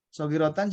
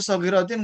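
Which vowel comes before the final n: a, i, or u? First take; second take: a; i. First: The vowel before the final n is a. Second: The vowel before the final n is i. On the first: "juga nggak boleh" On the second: "nggak boleh"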